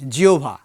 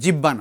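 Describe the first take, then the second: First: The middle has an o sound then bh. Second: The middle lacks the o-then-bh sound. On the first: The speaker calls it right. "প্রথমে বটি ও, তারপরে সাউন্ডটা হবে ভ" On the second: The speaker calls it wrong. "নয়"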